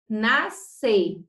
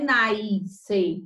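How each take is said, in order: First: "nascer" said slowly as "nas-cer", pure a; no I sound. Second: "nascer" as a drawn-out "naiis-cer", with an added i; intrusive I. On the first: Teacher giving pupils the correct nascer, careful pure vowel. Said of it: "Nós não temos nenhum I aqui". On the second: Teacher warning pupils off a mispronunciation, exaggerated added i. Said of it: "não é nascer". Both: Shown as a demonstration.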